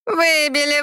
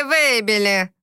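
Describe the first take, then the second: First: Выбили sung out high and teasing; gloating mockery. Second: Smug mockery. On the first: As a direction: taunt with a high, smirking Выбили. (ехидно, высоко: «Выбили») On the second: (ехидно, ниже: «выбили») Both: A narrator's reading. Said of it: "ехидно ухмыляясь".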